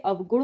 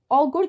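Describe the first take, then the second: First: अवगुण said as "av-gun"; correct separate v. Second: अवगुण said as "au-gun"; wrong merged vowel. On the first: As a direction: sound the v clearly in अवगुण. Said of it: "अवगुण होता है". (अवगुण में व साफ़ बोलें) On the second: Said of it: "की जगह अवगुण होता है". (अवगुण को "औगुण" बोलें) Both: Shown as a demonstration.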